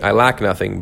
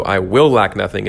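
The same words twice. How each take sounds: First: "lack" carries the weight, as present fact; stress on LACK. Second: "will" punched as a firm promise; stress on WILL. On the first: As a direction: lean on the word "lack". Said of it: "when you say it, put it that way". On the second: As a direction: lean hard on the word "will". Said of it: "but also". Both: Shown as a demonstration.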